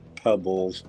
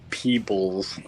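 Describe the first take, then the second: First: The vowel is a short 'eh' sound. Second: The vowel is a long 'ee' sound. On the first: The speaker calls it wrong. "not Pebbles" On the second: The speaker calls it right. "it's uh, Peebles"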